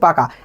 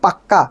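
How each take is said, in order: First: The k sound is short and single. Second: The k sound is held long and doubled. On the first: The boy is good at the game. "ছেলেটা খেলায় খুব পাকা" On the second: The boy is truly, thoroughly good at the game. "একই ব্যঞ্জন দুইবার ব্যবহার করলাম... জোর দিলাম"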